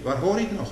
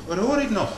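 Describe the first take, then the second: First: "Waar hoor ik nog" asked higher; questioning rise on "Waar hoor ik nog"; raised question. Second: "Waar hoor ik nog" pitched much higher, stress on "hoor"; urgent repeat of "Waar hoor ik nog"; high insistent question. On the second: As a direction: push "hoor" up high and loud. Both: Shown as a demonstration.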